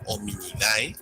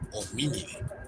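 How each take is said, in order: First: The ending sounds both vowels, a then e. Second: The ending is a single e sound. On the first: The speaker calls it wrong. "nunca como hominidae" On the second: The speaker calls it right. "se pronunciaría como homínide"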